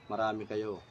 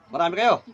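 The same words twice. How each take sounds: First: Much lower, softer voice; low musing echo. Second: Said in the usual way. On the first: Real, not acted. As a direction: repeat it quietly to yourself. Echoes the answer to himself.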